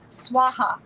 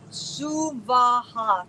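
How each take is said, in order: First: The word is said as two syllables. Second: The word is said as three equal syllables. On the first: The speaker calls it wrong. "typically, you'll hear the pronunciation" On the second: The speaker calls it right. "three equal separate syllables"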